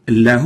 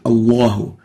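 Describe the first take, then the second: First: The l in Allah sounds light and thin. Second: The l in Allah sounds heavy and full. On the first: The speaker calls it wrong. "we don't say" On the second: The speaker calls it right. "resonate to fill the whole mouth"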